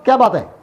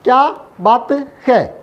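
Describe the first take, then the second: First: The words are run together and shortened. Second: Each word is said fully and separately. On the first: This is how it is said in speech. "ये short हो गया, ऐसा छोटा हो गया" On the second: This is how it is written. "लिखने में कैसे लिखेंगे?"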